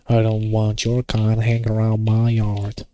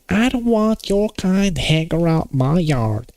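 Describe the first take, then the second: First: It has only a weak Southern American accent. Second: It has a stronger Southern American accent. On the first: The speaker calls it wrong. "that sounded rough, didn't it? I couldn't pull the real Southern American accent" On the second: The speaker calls it right. "you have to get that, like, uh, what do you call it? Trump supporter"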